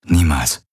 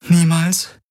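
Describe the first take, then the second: First: Grave answer. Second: High-pitched, rising question; disbelieving echo. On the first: Man admitting it to his partner, grave and falling. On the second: Woman questioning her partner's answer, high disbelief. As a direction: echo it back in disbelief, much higher. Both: Acted.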